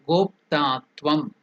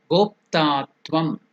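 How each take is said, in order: The two takes are said the same way.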